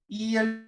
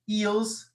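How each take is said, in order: First: The word ends without any S sound. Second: The word ends with an audible S sound. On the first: The speaker calls it right. "Notice I'm not pronouncing the S" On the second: The speaker calls it wrong. "I'm not saying eels"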